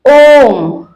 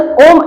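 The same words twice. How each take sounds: First: The vowel is drawn out long. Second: The word is said quickly and short. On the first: The speaker calls it right. "इसमें थोड़ा समय लेकर पढ़ेंगे" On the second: The speaker calls it wrong. "तुरंत ओम ऐसे नहीं पढ़ेंगे"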